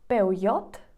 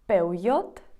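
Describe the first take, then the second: First: It is pronounced the Spanish way. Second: It is pronounced the Spanish way.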